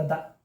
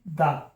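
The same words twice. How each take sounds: First: "द" said short and soft with a weak schwa; "द" reduced to a soft schwa, shown as right. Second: "द" said with a full open "da"; "द" with a full vowel, shown as wrong. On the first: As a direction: say "द" the right way, as a quick unstressed uh. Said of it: "द ऐसा हो जाता है". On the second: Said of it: "ये द नहीं होता". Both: Shown as a demonstration.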